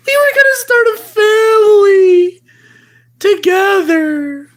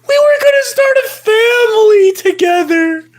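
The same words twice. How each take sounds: First: Hammed-up teary shout, fast; a touch of fake crying; mock wailing. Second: Said in the usual way. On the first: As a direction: wail it like a jilted lover. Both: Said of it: "repeated lament".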